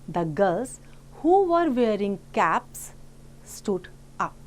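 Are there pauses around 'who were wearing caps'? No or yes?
yes. It has pauses before and after the clause. "the adjective clause is enclosed within commas in the second sentence"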